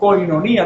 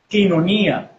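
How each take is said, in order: First: The first syllable sounds like 'koy'. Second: The first syllable sounds like 'kee'. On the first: The speaker calls it wrong. "no se dice koiné o koinonía, no se pronuncia así" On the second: The speaker calls it right. "En la fonética se dice quiné, quinonía"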